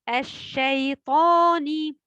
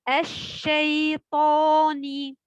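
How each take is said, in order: The two takes are said the same way.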